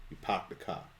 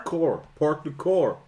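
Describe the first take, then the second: First: Soft Boston accent without R's. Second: "Park the core" with heavy, pronounced R's; hard R. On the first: Cohost showing Boston accent, R's taken out. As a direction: drop the R's, Boston style, quietly. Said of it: "You take the R out". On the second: Cohost showing LA accent, "core" with extra R. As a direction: lean hard on the R in "core", higher. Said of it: "put the extra R on". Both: Shown as a demonstration.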